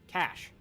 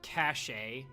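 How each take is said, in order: First: It is said as one short syllable. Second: It is said with an extra final vowel. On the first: The speaker calls it right. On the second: The speaker calls it wrong. "did you just pronounce it cache? Did you pronounce it Porsche too?"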